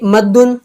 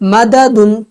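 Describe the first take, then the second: First: The two d sounds merge into one doubled d. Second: A vowel separates the two d sounds. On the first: This is the word as actually used. "जैसे मद्दुन यानी खींचना" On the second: This is the word's original underlying form. "ये असल में मददुन था"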